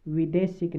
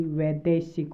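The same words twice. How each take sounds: First: विदेशिक starting with short "vi"; wrong form विदेशिक. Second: वैदेशिक starting with "vai", an open long vowel; correct form वैदेशिक. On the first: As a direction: say विदेशिक with an 'i' in the first syllable. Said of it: "विदेशिक नहीं होगा". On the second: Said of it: "बल्कि वैदेशिक होगा". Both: Shown as a demonstration.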